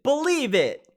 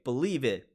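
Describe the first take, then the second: First: High, loud catchphrase yell; Naruto shout. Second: Said in the usual way. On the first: Retold or imitated. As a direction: belt it out like an anime hero. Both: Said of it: "Gotta love Naruto stuff".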